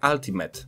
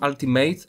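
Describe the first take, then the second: First: The last syllable ends with a short 'mit' sound. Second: The last syllable ends with a 'mate' sound. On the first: The speaker calls it right. "to słowo czyta się Ultimate. Tam nie ma J" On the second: The speaker calls it wrong. "Ja to zawsze czytałem Ultimate"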